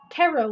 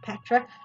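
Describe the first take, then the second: First: The word begins with a T sound, no P. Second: The word begins with a pronounced P sound. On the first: The speaker calls it right. "because P silent" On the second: The speaker calls it wrong. "not Petra"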